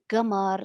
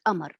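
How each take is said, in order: First: The word begins with a g sound. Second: The word begins with a glottal stop. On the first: This is the form being dropped. "they eliminate this feature, which is like, for example" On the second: This is the form now preferred. "they prefer now to use"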